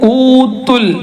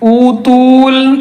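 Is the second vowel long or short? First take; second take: short; long. First: The second vowel is kept short. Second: The second vowel is drawn out long. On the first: The speaker calls it right. "തൂ എന്നുള്ളത് നീട്ടണ്ട" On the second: The speaker calls it wrong. "തൂ നീട്ടിയാൽ"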